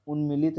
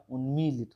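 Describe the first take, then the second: First: उन्मिलित with a short i after m; wrong form. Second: उन्मीलित with a long ee after m; correct form. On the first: Teacher rejects the spelling for students, wrong form. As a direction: say उन्मिलित with a quick mi. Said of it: "उन्मिलित नहीं होता". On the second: Teacher corrects the vowel for students, correct form. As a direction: say उन्मीलित stretching the mee. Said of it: "बड़ी की मात्रा होगी". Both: Shown as a demonstration.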